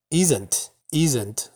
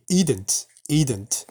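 First: The middle consonant is a clear s sound. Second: The middle consonant is a d sound.

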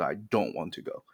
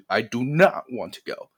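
First: Not is contracted into don't, said plainly. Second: Not is said as a separate, emphasized word. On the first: An ordinary statement of not wanting to go. "你用普通说话是" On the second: The speaker strongly does not want to go. "当你真的不想，非常非常不想去的时候"

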